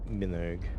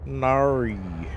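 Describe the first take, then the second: First: It is said in the speaker's plain accent. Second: It is said in an exaggerated Australian accent.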